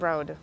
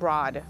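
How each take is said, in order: First: The vowel sounds like the one in road. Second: The vowel sounds like the one in law. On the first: The speaker calls it right. "it's pronounced Broad" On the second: The speaker calls it wrong. "not Broad"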